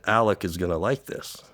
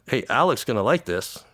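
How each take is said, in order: First: It is said at a normal, quiet volume. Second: It is said very loudly.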